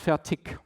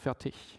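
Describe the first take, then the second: First: The word ends with a hard k-like sound. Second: The word ends with a soft, non-k sound. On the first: The speaker uses a regional pronunciation. The speaker calls it wrong. "from the part in Germany where I'm coming from, I say it's fertig, with more or less a K at the end" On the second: The speaker uses the standard pronunciation. The speaker calls it right. "in proper German it's fertig"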